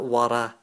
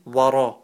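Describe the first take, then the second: First: The r is said light, with an empty mouth. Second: The r is said heavy, with a full mouth. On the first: The speaker calls it wrong. "not wara" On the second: The speaker calls it right. "It's a full mouth"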